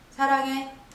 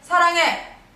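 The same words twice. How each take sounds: First: It is said softly with slightly more force. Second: It is said loudly with strong force. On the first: "한 단계 올라볼까요?" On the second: "사 단계"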